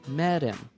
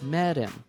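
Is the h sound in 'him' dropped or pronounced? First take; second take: dropped; dropped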